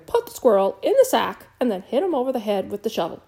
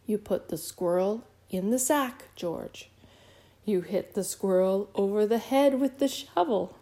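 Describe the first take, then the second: First: Loud, fast, emphatic command; shouted order. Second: Measured, spelled-out order; slow, deliberate repetition. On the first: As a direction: shout the instructions in exasperation. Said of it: "shouted her mother". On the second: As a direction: repeat it phrase by phrase, with pauses. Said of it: "She said them more slowly". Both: A narrator's reading.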